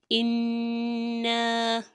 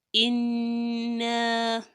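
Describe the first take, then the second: The two takes are said the same way.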